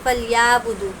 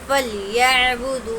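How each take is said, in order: First: The ain sound is left out entirely. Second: The ain sound is pronounced softly without jerk. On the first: The speaker calls it wrong. "बहुत सारे लोग ऐसे ही पढ़ते हैं" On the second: The speaker calls it right. "आइन को नरमी के साथ अदा करना है"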